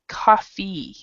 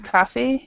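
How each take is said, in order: First: The word is said longer and drawn out. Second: The word is said short and clipped. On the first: The speaker calls it right. "we pronounce it a little bit longer" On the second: The speaker calls it wrong. "instead of cafe"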